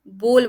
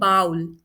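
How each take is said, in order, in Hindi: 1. स्वर 'oh' जैसा लगता है, जैसे go में। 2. स्वर 'ow' जैसा लगता है, जैसे cow में। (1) "बोल बोलते हैं, इसे बाउल प्रोनाउंस नहीं करते।" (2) "बहुत लोग इसे बोलते हैं बाउल, जो कि रॉन्ग है।"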